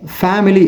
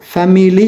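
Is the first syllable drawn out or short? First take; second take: drawn out; short. First: The first syllable is drawn out. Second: The first syllable is short. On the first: "ஃபே என்ற இடத்தில் இழுத்து" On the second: "family என்று நாங்கள் சொல்வதை"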